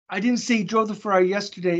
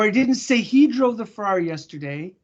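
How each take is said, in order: First: The stress falls on the word yesterday. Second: The stress falls on the word he. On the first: A different day was named. "It was the day before" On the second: A different person was named. "I said she"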